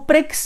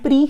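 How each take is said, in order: First: The word ends with a 'ks' sound. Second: The word ends on a plain vowel. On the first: The speaker calls it wrong. "इसको प्रिक्स नहीं बोलते हैं" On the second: The speaker calls it right. "इसको grand प्री ही बोलते हैं"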